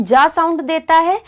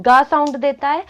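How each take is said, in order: First: "जा" said with a j sound, as in giant; soft G sound. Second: "गा" said with a hard g, as in gain; hard G sound. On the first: Teacher showing learners where G sounds soft, "जा" pronounced with a j. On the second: Teacher showing learners the other sound of G, "गा" pronounced with a hard g. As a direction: say "गा" with a hard G, not a j. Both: Shown as a demonstration. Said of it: "कहीं कहीं पे क्या होता है".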